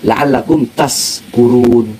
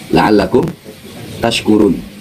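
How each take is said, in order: First: The verb is said with an 's' sound. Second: The verb is said with an 'sh' sound. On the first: May you be drunk. The speaker calls it wrong. "Tapi shinnya inti baca sin" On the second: May you be grateful. The speaker calls it right. "Semoga kalian menjadi hamba-hamba yang bersyukur"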